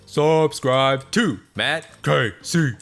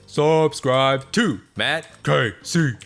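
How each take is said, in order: First: It is said in a put-on character voice. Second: It is said in a put-on character voice.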